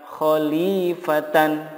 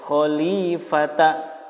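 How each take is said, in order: First: The word ends in t, a, and n. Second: The word ends in t followed by a. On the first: "Begitupun kata khalifatan" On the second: "tidak boleh dibaca khalifata"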